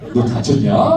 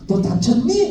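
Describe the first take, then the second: First: It is said in the speaker's regional dialect. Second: It is said in a Seoul accent.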